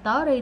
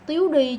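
First: The first vowel sounds like 'uh'. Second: The first vowel sounds like 'you'. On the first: The speaker calls it right. "chứ không đọc là tớ đi" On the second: The speaker calls it wrong. "giờ này vẫn còn ngồi đọc là tiếu đi"

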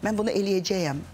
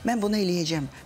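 First: The verb ending is fully pronounced as -cəyəm. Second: The verb ending is shortened to -cəm.

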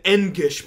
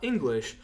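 First: The word is said without its L sound. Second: The word is said with its L sound. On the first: The speaker calls it wrong. "I was an Engish professor" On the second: The speaker calls it right. "not English"

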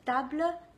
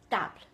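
First: The ending of the word is fully pronounced. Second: The ending of the word is cut off. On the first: The speaker calls it right. "Instead of table" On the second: The speaker calls it wrong. "they are cutting the ending of the words"

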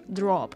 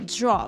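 First: The 'dr' is plain, with a Russian accent. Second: The 'dr' has a 'zh' buzz, American accent. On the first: The speaker calls it wrong. "что у него такой русский акцент. Мы говорим просто drop" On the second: The speaker calls it right. "А вот в американском акценте… соединение шершавое"

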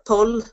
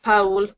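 First: The vowel sounds like 'u', Ulster style. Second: The vowel sounds like 'ow', Munster style. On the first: "But up in Ulster" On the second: "People in Munster would pronounce it Powell"

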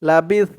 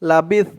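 The two takes are said the same way.

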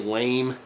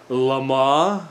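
First: The word is said as plain English 'lame'. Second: The word is said with a French-style ending. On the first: "so we're just going to say lame" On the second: "It's more of a French pronunciation, so I want to say like Lama"

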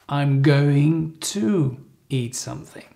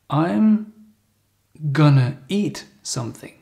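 First: Going to is said in full, more slowly. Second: Going to is reduced to a quick gonna.

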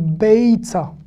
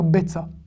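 First: The first vowel ends in a 'y' glide. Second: The first vowel is a plain 'e' without glide. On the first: The speaker calls it right. "On dit be, tsa" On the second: The speaker calls it wrong. "On peut ne pas le prononcer, dire be, tsa, mais c'est pas beau"

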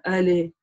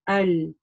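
First: The l is cut off with a vowel. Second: The l ends smoothly with no vowel. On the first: The speaker calls it wrong. "не надо али говорить, да, потому что это будет ошибка" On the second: The speaker calls it right. "не нужно ее резко отрывать"

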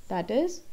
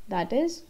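No difference in how they are said.

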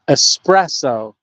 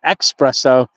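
First: The word begins with a plain 'es' sound. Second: The word begins with an 'ex' sound. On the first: The speaker calls it right. "If I'm gonna say it, espresso" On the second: The speaker calls it wrong. "not espresso"

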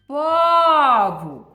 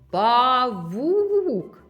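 First: The stress is on the first syllable. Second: The stress is on the second syllable. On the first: The speaker calls it wrong. "якщо я слово павук вимовлю так... Бо я неправильно ставлю наголос" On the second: The speaker calls it right. "Другий склад наголошений"

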